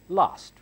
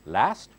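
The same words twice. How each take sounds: First: It is said in a British accent. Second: It is said in an American accent. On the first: "British English" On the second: "In American English"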